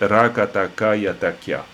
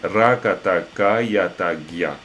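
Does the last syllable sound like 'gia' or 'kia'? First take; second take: kia; gia. First: The last syllable is said with a plain k sound. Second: The last syllable is said with a soft g sound. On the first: The letters are read one by one without the sound change. The speaker calls it wrong. "c'est pas très grave si tout à coup, dans les premiers temps, vous dites" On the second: The combined letters take their real spoken value. The speaker calls it right. "on peut corriger légèrement ... le cas devient gia"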